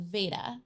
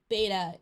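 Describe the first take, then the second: First: The word begins with a V sound. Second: The word begins with a B sound. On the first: This is the modern Greek pronunciation. "Modern Greek pronounces their ancient Greek B as a V" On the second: This is the ancient Greek pronunciation. "ancient Greek B"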